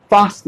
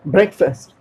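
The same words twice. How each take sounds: First: फास्ट with a drawn "aa"; wrong pronunciation. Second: ब्रेकफास्ट ending in a short "fust"; correct pronunciation. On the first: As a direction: show फास्ट as "faast". (फास्ट में लंबा आ) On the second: (ब्रेकफास्ट का अंत छोटा, फ़स्ट) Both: Shown as a demonstration. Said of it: "फास्ट नहीं".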